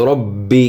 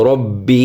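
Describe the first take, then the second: No difference in how they are said.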